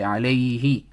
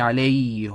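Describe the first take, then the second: First: The vowel after the h is i. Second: The vowel after the h is u. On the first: The speaker calls it right. "we say عليه" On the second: The speaker calls it wrong. "we don't say عليه"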